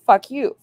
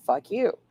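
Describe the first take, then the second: First: Loud, playful mock shout; mock anger. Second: The same words, quieter and teasing; softer teasing. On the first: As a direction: yell it at chat as a joke. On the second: Pretend. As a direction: let the anger drop into a tease. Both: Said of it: "No, I'm just joking".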